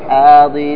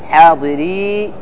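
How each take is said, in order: First: The word ends with a short vowel. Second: The word ends with a long ee vowel. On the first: The reader joins this word to the next. "إذا وصلت ... أحذف الياء للتخلص من التقاء الساكنين" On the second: The reader stops on this word. "إذا وقفت، ... وقفت آتي بالياء"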